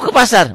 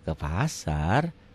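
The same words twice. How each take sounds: First: It is said in an irritated, curt tone. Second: It is said in a warm, friendly tone. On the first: The person is in a bad mood. "Kan kalau lagi kesel kan begitu ditanya" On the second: The person is in a good mood. "Gitu ya kalau lagi enak"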